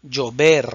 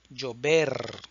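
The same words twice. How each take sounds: First: Llover, louder, LL like "j" in judge; Llover, model word set out loud; Llover, la LL como "ye" fuerte. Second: Llover repeated softer, LL like "j" in judge; llover, calm echo take; llover, repetición suave; quiet repeat llover. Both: Shown as a demonstration. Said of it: "El sonido de la doble L".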